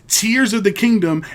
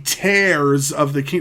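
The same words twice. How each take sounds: First: 'Tears' rhymes with 'fears'. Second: 'Tears' rhymes with 'bears'. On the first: The title refers to crying. The speaker calls it right. "there's tear droplets in the the trailer" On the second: The title refers to ripping apart. The speaker calls it wrong. "why on earth would it be"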